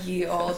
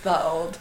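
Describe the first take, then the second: First: The first word begins with a y sound. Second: The first word begins with a th sound. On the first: The speaker calls it wrong. "it wouldn't have been said ye old" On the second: The speaker calls it right. "It would have been just the old"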